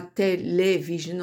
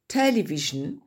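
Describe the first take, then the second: First: "télévision" said the French way, full final "-sion"; the wrong, French "télévision"; French pronunciation. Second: "Television" said the English way, a light schwa ending; English pronunciation. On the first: Teacher showing students the French form to avoid, French pronunciation. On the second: Teacher contrasting English and French for her class, English pronunciation. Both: Shown as a demonstration. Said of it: "on dit pas télévision".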